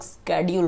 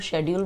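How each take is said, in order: First: It begins with 'sk', American style. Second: It begins with 'sh', British style.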